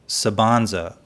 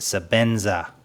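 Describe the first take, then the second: First: The second syllable sounds like 'ban'. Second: The second syllable sounds like 'ben'. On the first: The speaker calls it wrong. "a week ago I would have said the Sabanza" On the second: The speaker calls it right. "let me pronounce it correctly"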